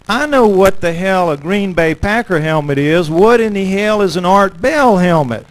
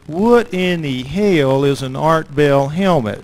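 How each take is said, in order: First: Louder, mock-exasperated guard. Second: Slow, puzzled guard, a little louder; guard asks. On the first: Biker guard repeats his question, louder and fed up. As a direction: push the question back at him, mock annoyed. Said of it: "And he says". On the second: Retold or imitated. Guard at the gate questions the helmet, slow and puzzled. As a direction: drag out the question like a skeptical guard. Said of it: "he looks at me and he says".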